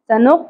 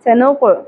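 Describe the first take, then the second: First: The final q ends flat with no bounce. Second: The final q ends with an echoing bounce. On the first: The speaker calls it wrong. "قاف کو سنق نہیں پڑھنا" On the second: The speaker calls it right. "اس حرف کو اپنے مخرج سے ہلائیں گے"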